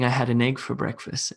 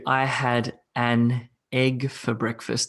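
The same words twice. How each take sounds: First: The words run together, linking an into egg. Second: Each word is said separately, without linking. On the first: The speaker calls it right. "What I would say is" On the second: The speaker calls it wrong. "that would be weird because I don't speak like that naturally"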